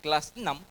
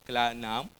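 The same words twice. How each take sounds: First: The phrase is pronounced clearly and precisely. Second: The phrase is pronounced indistinctly and imprecisely. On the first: This is the standard way to say it. The speaker calls it right. "bukan kelas enam" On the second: This is how someone who cannot hear says it. The speaker calls it wrong. "dia nyebutnya kelas enam"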